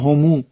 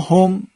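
First: The pronoun ends with an added u vowel. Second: The pronoun ends on the consonant m. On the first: "برخی از قبایل عرب اینطوری میگن" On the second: This is the common form used in Arabic. "این ضمائر است که به کار برده میشه در عربی"

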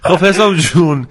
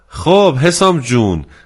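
First: The word جون is strongly stressed. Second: The word جون carries no special stress.

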